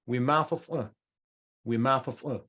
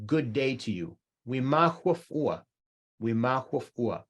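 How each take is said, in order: First: "We ma huf ua" with f replacing the h, Western style; Western pronunciation. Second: "We ma huf ua" with a clear h, the Eastern way; Kabardian pronunciation. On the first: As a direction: turn "huf" into "fuf". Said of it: "If you're a Westerner". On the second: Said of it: "in Kabardian". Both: Shown as a demonstration.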